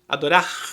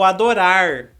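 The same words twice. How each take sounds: First: The final r is a scraping throat sound. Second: The final r is a curled-tongue r. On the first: "dá uma raspadinha" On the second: "aquele R caipira"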